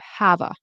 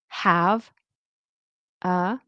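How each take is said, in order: First: The two words are linked together. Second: The two words are said separately. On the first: "when we connect it" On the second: "separately we'll say"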